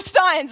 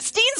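First: The final syllable has an 'eye' vowel. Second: The final syllable has an 'ee' vowel. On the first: The speaker calls it wrong. "Is it Steens or Steins?" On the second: The speaker calls it right. "Is it Steens or Steins?"

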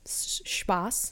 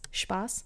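First: The word begins with a plain S sound. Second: The word begins with an Sh sound. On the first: The speaker calls it wrong. "she says a S sound instead of a Sh sound" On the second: The speaker calls it right. "instead of Spaß"

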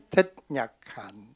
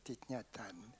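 First: The name is said with Vietnamese pronunciation. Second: The name is said with French pronunciation. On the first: The speaker calls it right. "Moi je dis Thich Nhat Hanh" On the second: The speaker calls it wrong. "comme je suis vietnamien, je ne peux pas dire Thich Nhat Hanh"

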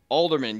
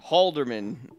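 First: The name starts with a vowel, no H sound. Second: The name starts with a clear H sound. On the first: The speaker calls it wrong. "I forgot to enunciate the H" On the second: The speaker calls it right. "I forgot to enunciate the H"

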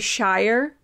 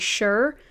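First: The vowel rhymes with 'fire'. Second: The vowel rhymes with 'fur'. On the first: The speaker calls it wrong. "people don't say Shire" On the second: The speaker calls it right. "They say Sure"

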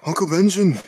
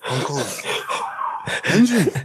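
First: It is said at normal speed. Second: It is said more slowly.

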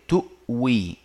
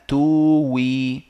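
First: A glottal stop comes before the w sound. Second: The glottal stop is replaced by a w sound. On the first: The speaker calls it right. "هذه همزة ساكنة بعدها واو مكسورة" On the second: The speaker calls it wrong. "خلينا نبدلها كده ونشوف تطلع إيه"

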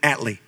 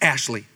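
First: The name is said clipped, its middle sound changed. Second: The name is said fully with a clear middle sound. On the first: This is how its owner said it. "he never said his name fully enunciation. He said Atley" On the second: This is the name as it really is. "His name was Ashley"

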